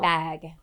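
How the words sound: The word has a neutral, unregional vowel.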